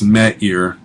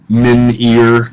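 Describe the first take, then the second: First: No n is pronounced before the vowel. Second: An n is pronounced before the vowel. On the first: The speaker calls it right. "it's me ear" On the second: The speaker calls it wrong.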